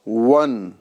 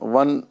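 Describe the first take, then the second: First: The first sound uses rounded lips, not teeth. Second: The first sound uses lower lip against teeth. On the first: The speaker calls it right. "वाव ये होठों की गोलाई से अदा करना है" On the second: The speaker calls it wrong. "सिर्फ आप होठ और दांतों को मिला दें। वन वन नहीं कहना है"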